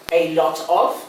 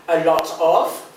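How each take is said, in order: Both takes have the same delivery.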